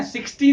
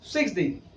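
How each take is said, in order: First: "सिक्सटी" loud, with a long hard six-TEE; wrong pronunciation of sixty. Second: "सिक्सटी" lower, as SIX-dee with a short ending; short-ending sixty. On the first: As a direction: stress and stretch TEE in "सिक्सटी". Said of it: "सिक्सटी नहीं". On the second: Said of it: "long vowel sound नहीं". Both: Shown as a demonstration.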